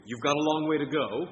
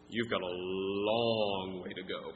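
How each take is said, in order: First: "You've got a long way to go" with WAY pushed up high and louder, rising at the end; stress on WAY. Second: "You've got a long way to go" slowly, low, with "long" stretched and falling; stress on LONG, drawn out. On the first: Preacher demonstrating emphasis by tone, stress on "way". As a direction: lift and punch "way", end on a rise. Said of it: "by tone of voice". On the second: Preacher contrasting a second reading, slow stretched "long". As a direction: drag out "long", sinking tune. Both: Shown as a demonstration.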